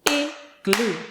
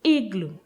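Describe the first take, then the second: First: "igloo" split into two clapped beats, ig, gloo; syllable by syllable. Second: Said in the usual way. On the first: Shown as a demonstration. Teacher clapping syllables for children, "igloo" broken in two. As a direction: clap out "igloo" with a gap between ig and gloo. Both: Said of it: "Let's say and clap the word".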